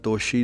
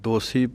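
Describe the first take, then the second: First: The middle consonant is an 'sh' sound. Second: The middle consonant is a plain 's' sound. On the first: The speaker calls it wrong. "ਦੋਸ਼ੀ ਨਹੀਂ ਪੜ੍ਹਨਾ" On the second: The speaker calls it right. "ਦੋਸੀ ਪਾਠ ਹੈ ਸੱਸਾ ਇੱਦਾਂ ਹੀ ਬੋਲਣਾ ਹੈ"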